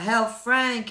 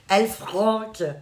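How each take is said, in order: First: The name is pronounced with English sounds. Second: The name is pronounced with French sounds. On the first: "on le prononce effectivement à l'anglaise" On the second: "Très français"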